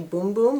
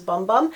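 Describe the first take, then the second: First: The vowel is a long 'oo' sound. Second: The vowel is a short 'uh' sound. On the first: This is how other people say it. "I've heard people say Boom Boom" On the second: This is how it looks when written. "for me it's pronounced, it looks like it says Bum Bum"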